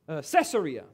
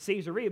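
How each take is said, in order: First: The name does not begin like 'Caesar'. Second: The name begins with the sound of 'Caesar'. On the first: The speaker calls it wrong. "Some of you may pronounce this city Caesarea" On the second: The speaker calls it right. "They pronounce it Caesarea because it's named after Caesar"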